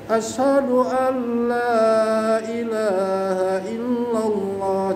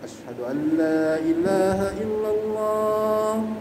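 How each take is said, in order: First: The phrase is said in a loud, high voice. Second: The phrase is said in a soft, low voice. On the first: "Jadi meninggi" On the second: "pertama agak lirih, pelan-pelan"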